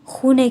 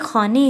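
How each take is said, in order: First: The first vowel is a long 'oo' sound. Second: The first vowel is a long 'aa' sound. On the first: This is the spoken form. "इसको प्रोनाउंस खूने किया जाता है" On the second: This is the written form. "यहाँ पे खाने है"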